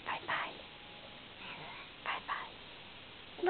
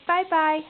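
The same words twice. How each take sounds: First: Soft whisper, much softer; whispered bye-bye. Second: Said in the usual way. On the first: Real, not acted. Parent whispering goodbye to her little boy, hushed. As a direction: breathe it out like a secret.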